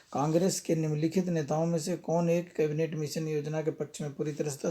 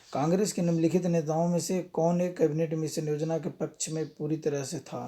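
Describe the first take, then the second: Both takes have the same delivery.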